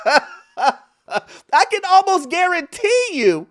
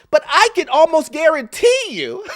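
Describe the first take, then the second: First: Laughing, drawn out. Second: Said in the usual way. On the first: Real, not acted. Repeats line while laughing.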